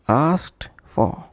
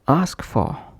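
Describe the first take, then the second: First: The t sound after ask is heard. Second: The t sound after ask is dropped. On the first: "pronounced as asked for" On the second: "would become ask for, completely omitting the t sound"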